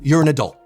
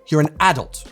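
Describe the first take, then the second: First: It is said with an American pronunciation. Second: It is said with a British pronunciation. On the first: "In America" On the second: "In the U K"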